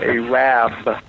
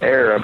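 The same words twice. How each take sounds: First: The word is said the local way. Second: The word is said the common way. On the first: This is how the townspeople say it. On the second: This is not how the townspeople say it.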